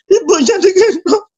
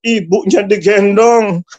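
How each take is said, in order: First: High, sobbing voice; crying. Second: Said in the usual way. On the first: Real, not acted. Preacher moved by son carrying his mother, crying. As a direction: repeat it through tears, pitched high. Tearful repeat of the same words.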